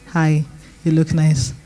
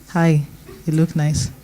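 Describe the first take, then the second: No difference in how they are said.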